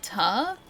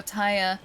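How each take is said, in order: First: "ta" as one long open syllable; tire flattened to ta. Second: Said in the usual way. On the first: Shown as a demonstration. Streamer giving examples, "tire" squashed to "ta". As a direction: draw out "ta" with no glide or R. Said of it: "Like choir can be qua". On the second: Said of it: "don't say fire like fa".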